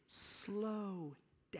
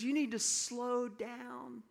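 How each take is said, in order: First: Hushed, breathy slow down; a mentor whispering to slow down; whispered warning. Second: Higher and drawn-out, each word spaced; slow the words down to show him how; deliberately slowed mentor advice; slow, firm insistence. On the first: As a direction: drop to a whisper to rein him in. Mentor quietly warns him on sidewalk. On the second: Mentor repeats the warning firmly. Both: Retold or imitated.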